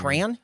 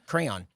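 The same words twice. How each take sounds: First: Crayon squashed into one syllable, "cran". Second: Crayon in two syllables, "cray-on", low and soft. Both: Shown as a demonstration. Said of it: "He's saying crayon instead of crayon".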